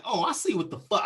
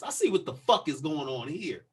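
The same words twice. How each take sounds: First: A touch of indignant realization, slightly raised. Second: Measured, pointed retort in a slightly lower voice; pointed realization. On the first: Man to officer who ordered him back, mildly indignant retort. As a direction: react as if catching on, mildly heated. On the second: Man showing how he answered the officer, controlled pointed retort. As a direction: spell it out with restrained indignation. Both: Retold or imitated. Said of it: "I said it just like this".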